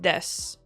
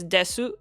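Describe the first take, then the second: First: The final u vowel is dropped. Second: The final u vowel is clearly pronounced. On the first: The speaker calls it right. "It's just des" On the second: The speaker calls it wrong. "So you'd think it's desu, but it's not"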